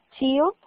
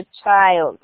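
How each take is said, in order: First: Put-on child said the wrong way, not as chaild; wrong pronunciation. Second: Put-on child said in English as chaild, with a ch sound and a long ai; correct pronunciation. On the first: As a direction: mispronounce child on purpose, the way students do. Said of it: "no es child". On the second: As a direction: model child clearly as chaild for the class. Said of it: "sino child". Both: Shown as a demonstration.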